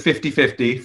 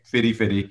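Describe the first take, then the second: First: The middle t sounds as a clear t. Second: The middle t sounds soft, like a d. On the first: "I'm going to call it the 50-50 for the sake of the accent" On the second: "I'll say fiddy fiddy"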